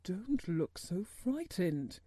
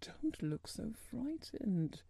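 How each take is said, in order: First: Slow, mildly exclaimed reassurance. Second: Soft, slow, worried voice. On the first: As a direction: exclaim it gently, drawing the words out. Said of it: "he exclaimed". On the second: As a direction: say it slowly with hushed concern. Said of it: "he said in a worried voice". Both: A narrator's reading.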